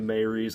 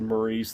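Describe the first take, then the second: First: The name sounds like "Mary's". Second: The name sounds like "Maurice". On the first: This is how the show says it. "They say Mary's" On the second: This is how it was read from the book. "I always said Maurice"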